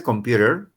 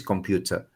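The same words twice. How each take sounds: First: American accent. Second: "computer" with a clear t and no final r, said like "compjuta"; British accent. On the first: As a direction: say "computer" the American way, tapped t and a sounded r. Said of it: "en americano dice". ("computer" con acento americano, la t como r suave y la r final marcada) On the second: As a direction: say "computer" the British way, crisp t and a soft ending. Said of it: "y en British". ("computer" con acento británico, t clara y sin r final) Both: Shown as a demonstration.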